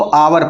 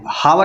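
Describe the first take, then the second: First: The word begins with a vowel, no h. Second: The word begins with an h sound. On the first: The speaker calls it right. "इसको आवर पढ़ते हैं" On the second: The speaker calls it wrong. "हावर नहीं पढ़ेंगे"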